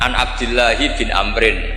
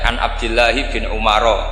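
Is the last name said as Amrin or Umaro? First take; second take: Amrin; Umaro. First: The last name is pronounced Amrin. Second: The last name is pronounced Umaro. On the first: The speaker calls it right. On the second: The speaker calls it wrong.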